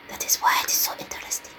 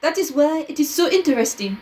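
First: Whispered French-accented detective; softly. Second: Said in the usual way. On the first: Shown as a demonstration. Redoing the detective's line as softly added, whispered. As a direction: drop to a quick, creepy whisper. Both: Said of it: "he added softly".

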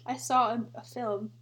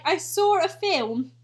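First: Said in the usual way. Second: Slow mock British accent; drawn-out British accent. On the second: Reading a British people tweet, mock British accent. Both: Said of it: "British people be like".

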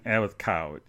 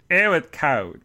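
First: Said in the usual way. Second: COLD louder and higher; louder, raised complaint, stressing "cold"; emphatic repeat. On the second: Real, not acted. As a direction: lean hard on "cold".

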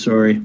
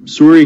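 First: Said in the usual way. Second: Sorry said higher and louder, with an open "o". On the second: Real, not acted. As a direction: call out the apology over the others. Apology after interrupting.

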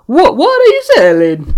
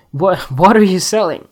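First: Loud, high-pitched mock Italian; over-the-top failed Italian accent; bad Italian accent. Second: Said in the usual way. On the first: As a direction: belt it out in a hammy Italian accent. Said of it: "Nah, that Italian doesn't work". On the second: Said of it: "that Italian doesn't work".

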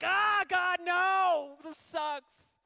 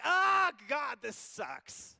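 First: Loud, high tantrum groan; whiny shout. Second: Loud, high mock groan at God; whiny shout. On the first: Acted. Believer complaining to God mid-journey, loud whiny shout. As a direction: whine like a spoiled child. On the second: Preacher mocking ungrateful Israel, loud whiny shout. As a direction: throw a spoiled tantrum.

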